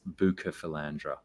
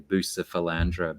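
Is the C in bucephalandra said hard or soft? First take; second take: hard; soft. First: The C is said as a hard K. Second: The C is said as a soft S. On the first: This is the supposed Latin pronunciation. The speaker calls it right. "apparently um it's" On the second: This is how people commonly say it. The speaker calls it wrong. "people say"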